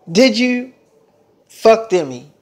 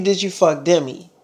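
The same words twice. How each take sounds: First: "Did you" then a pause, and "fuck Demi?" said apart and pressed; demanding, with pauses. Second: Said in the usual way. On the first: Retold or imitated. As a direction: split the question to force a yes or no. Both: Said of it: "It's a yes or no answer".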